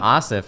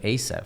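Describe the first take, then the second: First: The first vowel is an open 'ah' sound. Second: The first vowel is a hard English A. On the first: "That's why I'm Asif" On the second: "instead of Asif"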